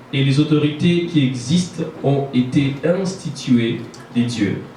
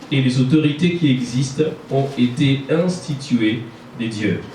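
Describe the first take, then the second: Both takes have the same delivery.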